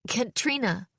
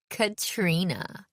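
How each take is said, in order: First: Quick, higher blurt under pressure. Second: Slow, drawn-out name with a smile. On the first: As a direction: blurt the name out, pitch lifted. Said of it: "I blurted". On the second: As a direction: savour the name, smiling. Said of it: "Eloise said with a smile". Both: A narrator's reading.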